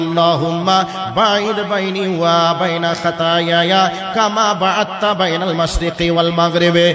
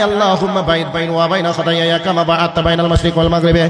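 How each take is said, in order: First: It is recited slowly and with feeling. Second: It is recited very quickly and hurriedly. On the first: The worshipper speaks humbly and from the heart. The speaker calls it right. "ভক্তি ভরে খুশু খুশু চিত্তে" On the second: The worshipper shows haste instead of devotion. The speaker calls it wrong. "এত জোরে বলে"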